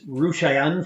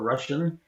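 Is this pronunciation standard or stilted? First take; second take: stilted; standard. First: The word has an unusual, stilted pronunciation. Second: The word has its usual, standard pronunciation. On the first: This is how sailors said it in shanties. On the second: This is the ordinary way to say it.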